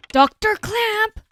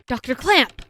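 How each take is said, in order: First: High, drawn-out call. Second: Said in the usual way. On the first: Acted. Character calls for the doctor, long high call. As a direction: stretch the name out, pitched high. Calling again, higher and drawn out.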